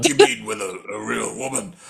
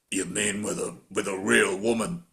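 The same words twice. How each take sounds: First: Mocking Stallone. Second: Lower, softer mock Stallone line; imitating Stallone. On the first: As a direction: squeak the line back in ridicule. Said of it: "what do you make of that statement". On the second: Podcaster quoting Stallone's line to Bridget, lower mock voice. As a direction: drop into a low, mumbled tough-guy read. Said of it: "Stallone actually goes".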